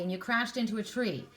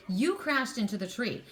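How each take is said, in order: First: Said in the usual way. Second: "You" stressed at the start. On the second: Real, not acted. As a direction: lean on "You" to place the responsibility. Repeats it, putting blame on you.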